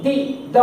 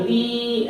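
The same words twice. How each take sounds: First: दी kept short and crisp, then द; correct short sound. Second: दी stretched out long, the wrong way; wrong long vowel. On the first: Teacher models the right दी and द for pupils. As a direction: clip दी short, not stretched. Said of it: "दी ऐसे नहीं". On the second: Teacher demonstrates the mistake to pupils, overlong दी. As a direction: drag out the ई in दी. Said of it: "पूरा खींचना नहीं". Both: Shown as a demonstration.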